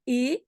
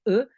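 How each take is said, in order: First: The vowel is a full, clear e. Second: The vowel is a reduced, mute schwa. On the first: The speaker calls it wrong. "c'est pas" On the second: The speaker calls it right. "c'est E muet"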